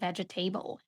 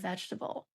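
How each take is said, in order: First: The final part 'table' carries a second stress. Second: The final part is reduced and left unstressed. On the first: The speaker calls it wrong. "they see the word table ... it's like a double stress word" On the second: The speaker calls it right. "instead of vegetable"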